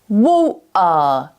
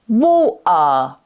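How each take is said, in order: First: The t is replaced by a throat catch. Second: The t is replaced by a throat catch.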